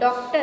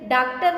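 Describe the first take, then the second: First: The first vowel is an open o sound. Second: The first vowel is an aa sound. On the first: The speaker calls it right. "ड पे अर्धचंद्र बिंदु" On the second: The speaker calls it wrong. "डॉक्टर नहीं है"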